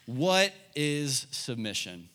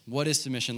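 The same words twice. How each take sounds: First: What is submission asked slowly, each word weighted; deliberate teacher's question; slow, emphatic question. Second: Said in the usual way. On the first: Shown as a demonstration. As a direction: spell it out slowly for note-takers. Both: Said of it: "write this down".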